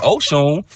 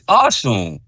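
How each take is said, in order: First: The name begins with an 'oh' vowel. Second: The name begins with an 'ah' vowel. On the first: The speaker calls it wrong. "there's a lot of people running around saying Oshun" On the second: The speaker calls it right. "her name is pronounced Ashun"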